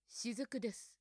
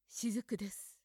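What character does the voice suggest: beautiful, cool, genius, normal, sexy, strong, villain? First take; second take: genius; cool. First: It is said in a clever, genius-like voice. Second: It is said in a cool, detached voice. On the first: "天才っぽく" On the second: "クールに"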